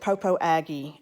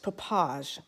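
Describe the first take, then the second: First: The name is said as four separate syllables. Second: The name is said as two blended syllables. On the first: This is how it would be read from its spelling. The speaker calls it wrong. "looks like you would pronounce it Popo Aggie. At least that's how you would pronounce it in the South" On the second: This is how it is actually pronounced locally. The speaker calls it right. "But no, it's Popage"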